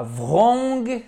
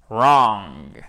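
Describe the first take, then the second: First: "wrong" wrongly begun with a V, as "vrong", high and drawn out; mispronunciation demo. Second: "wrong" low and long, starting straight on English R; correct pronunciation demo. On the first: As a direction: show the mistake: "wrong" as a high French "vrong". (« wrong » mal dit, « vrong », aigu et traînant) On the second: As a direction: model "wrong" louder, lower, no V sound. (« wrong » bien dit, R anglais, grave et appuyé) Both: Shown as a demonstration. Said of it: "Ce n'est pas wrong".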